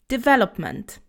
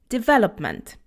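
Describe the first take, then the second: Both takes have the same delivery.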